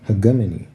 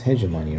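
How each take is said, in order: First: The g is hard, like in go. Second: The g is soft, like a j. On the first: The speaker calls it right. "So it's not even J, it's G" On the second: The speaker calls it wrong. "I think it's hegemony"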